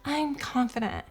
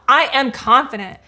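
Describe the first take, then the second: First: It is said shyly and quietly. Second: It is said firmly and boldly.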